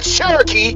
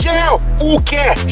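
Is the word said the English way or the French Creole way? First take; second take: English; French Creole. First: It is said as one word, Cherokee. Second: It is split into two words, shell uke. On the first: The speaker calls it wrong. "You pronounce it Cherokee" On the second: The speaker calls it right. "It's shell uke"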